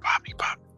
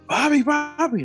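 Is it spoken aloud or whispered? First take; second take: whispered; aloud. First: It is whispered in a child's voice. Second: It is spoken aloud in a child's voice.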